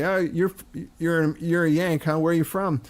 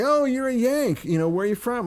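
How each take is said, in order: First: Mildly curious pub question, slightly raised pitch; imitated London pub local. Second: High, delighted-sounding greeting to a Yank; imitated northern English local. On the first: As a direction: lightly mimic a Londoner sizing up an American. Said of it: "two guys would say". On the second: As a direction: mimic a welcoming stranger, pitch well up. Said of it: "And people would say".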